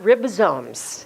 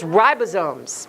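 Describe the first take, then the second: First: The first syllable has a short i sound. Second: The first syllable has a long i sound. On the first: The speaker calls it wrong. "It is not ribosomes" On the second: The speaker calls it right. "it's a long I"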